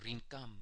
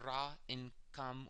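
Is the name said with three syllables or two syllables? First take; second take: two; three. First: The name is said as two joined syllables. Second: The name is said as three separate syllables. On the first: This is how the speaker's own group says it. "in our dialect, we pronounce it Rinkam" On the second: This is how other groups say it. "Some call it Ra-in-Kam"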